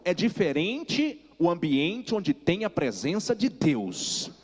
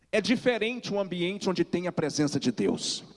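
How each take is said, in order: First: Slow, every word weighed, ending on Deus; slow emphatic repeat. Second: Said in the usual way. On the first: Shown as a demonstration. Preacher repeats for the congregation, slow and emphatic. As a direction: drive it home slowly a second time. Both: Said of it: "Vou falar de novo".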